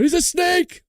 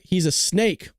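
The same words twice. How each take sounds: First: Suddenly high-pitched playful shout; mock alarmed cry. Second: Said in the usual way. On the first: Streamer warning the chat about Cindy, mock alarmed cry. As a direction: jump way up in pitch, hammed-up warning. Repeats chat greeting, hammed up.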